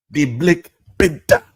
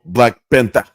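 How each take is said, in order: First: High-pitched mock African accent; hammed-up African accent on the movie title. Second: Said in the usual way. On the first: Comic echoing his own movie title in a mock African accent.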